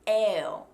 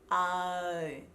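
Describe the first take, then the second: First: The vowel begins on an eh sound. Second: The vowel begins on an open ah sound. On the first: The speaker calls it wrong. "Be careful that you're not starting on an eh" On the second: The speaker calls it right. "starts on an open mouthed ah"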